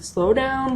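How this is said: It is said in a calm, relaxed tone.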